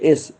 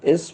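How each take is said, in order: The two takes are said the same way.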